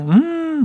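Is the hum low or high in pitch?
high. The hum is pitched noticeably higher.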